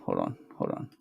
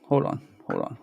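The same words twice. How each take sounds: First: Muttered under breath. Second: Said in the usual way. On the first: Real, not acted. Streamer hunting for the volume, whispering to himself. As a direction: hold on, hold on, dropped to a breathy whisper.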